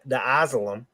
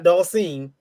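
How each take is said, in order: First: The name sounds like the words the asylum. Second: The name is said normally as Dhalsim. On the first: The speaker calls it wrong. "He used to say the the Asylum" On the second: The speaker calls it right. "not Dalcine"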